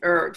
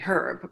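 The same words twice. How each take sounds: First: The word begins with a vowel, H silent. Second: The word begins with a pronounced H sound. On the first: The speaker calls it right. "but it's herb" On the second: The speaker calls it wrong. "It's not, you know, a herb"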